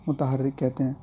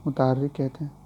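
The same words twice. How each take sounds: The two takes are said the same way.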